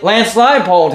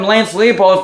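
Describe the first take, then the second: First: The surname sounds like Leipold. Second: The surname sounds like Leopold. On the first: The speaker calls it right. "when it's actually Lance Leipold" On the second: The speaker calls it wrong. "I've been calling him Lance Leopold for the longest time"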